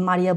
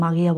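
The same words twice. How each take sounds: First: "মারিয়া" with an ordinary Bengali r; plain r in Maria. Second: "মাগিয়া" with a throaty g-like sound for r; German-style Maria. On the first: Teacher showing learners the familiar name, "মারিয়া" with plain r. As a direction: say "মারিয়া" with a clear tongue-tip r. Contrasts two pronunciations of Maria. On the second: Teacher showing how Germans say Maria, "মাগিয়া" with throaty r. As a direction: say "মাগিয়া", the r moved back to the throat. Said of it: "এরা মাগিয়া বলে". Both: Shown as a demonstration.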